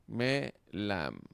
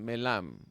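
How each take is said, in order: First: "Melam" slow, in two separate syllables, me, then lam; split into syllables. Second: Said in the usual way. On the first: Shown as a demonstration. Teacher shows how the word divides, "Melam" syllable by syllable. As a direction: say "Melam" with a clear break after "Me". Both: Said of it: "cómo se divide la palabra en sílabas".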